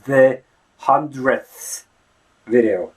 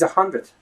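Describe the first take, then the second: First: The th is a full, breathy fricative. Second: The th is short and close to d. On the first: The speaker calls it wrong. "Nobody really says it's the hundredth video" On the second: The speaker calls it right. "It's a hundredth"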